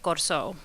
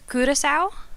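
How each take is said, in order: First: The name is said in the local Creole form. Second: The name is said with a Dutch pronunciation. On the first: "in a Portuguese Creole that is local to the island" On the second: "in Dutch"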